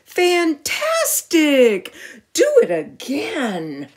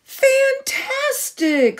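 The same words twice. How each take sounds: First: Slow, stretched-out excited shout. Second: High, slow, stretched-out shout of delight; thrilled cheer. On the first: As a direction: cheer the dragon on loudly. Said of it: "Elizabeth shouted". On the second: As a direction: cry it out high and long, amazed. Elizabeth cheers the dragon. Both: Acted.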